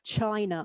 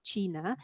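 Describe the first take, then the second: First: The word is pronounced the English way. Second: The word is pronounced the Spanish way. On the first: "An English person looking at the title of the book will naturally read"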